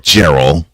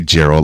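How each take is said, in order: First: It is said with an exaggerated Texas twang. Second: It is said in a plain, neutral accent. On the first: "I do it with a an exaggerated, and I do mean exaggerated, Texas twang" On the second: "I don't say Gerald"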